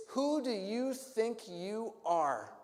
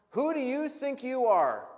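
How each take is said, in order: First: Slow, drawn-out, disbelieving; each word weighed in contempt; slow indignant challenge. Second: Higher and louder, outraged; furious demand. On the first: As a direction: leaders sizing Jesus up with scorn. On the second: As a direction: hurl it at him. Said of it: "this righteous indignation". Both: Acted.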